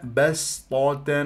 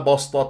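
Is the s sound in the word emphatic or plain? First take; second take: plain; emphatic. First: The s is a plain, light s sound. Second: The s is a heavy, emphatic s sound. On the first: The speaker calls it right. "وهنا بسطة" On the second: The speaker calls it wrong. "ما بسطة تجعلها صاد"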